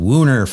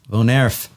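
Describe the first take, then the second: First: The word is said in an anglicized way. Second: The word is said in a Dutch-style way. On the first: The speaker calls it wrong. "I keep calling it Woon Erf" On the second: The speaker calls it right. "our Dutch friends are saying, no, Von Erf"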